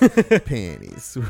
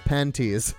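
First: The middle consonant sounds like a D. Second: The middle consonant is a clear T sound. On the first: "With a D" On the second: "This is how you say it, like this"

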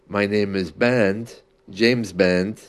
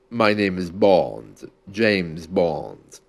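First: The vowels are made with the mouth spread sideways. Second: The vowels are made with the mouth pulled down. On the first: The speaker calls it wrong. "If you were to say that horizontally" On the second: The speaker calls it right. "our sounds are made very specifically by pulling the mouth down"

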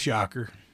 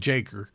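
First: The name begins with a Y sound. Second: The name begins with a J sound. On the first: The speaker calls it right. "but it's Yocker" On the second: The speaker calls it wrong. "you're going to hear people calling me Jaker"

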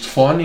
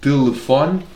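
First: Syllables are swallowed and run together. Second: Every syllable is fully pronounced. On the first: "que diz telefone" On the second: "em vez de dizer telefone"

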